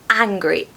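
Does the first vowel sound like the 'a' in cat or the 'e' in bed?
a sound. The first vowel is a short a sound. "sounds quite strong in the modern R P accent"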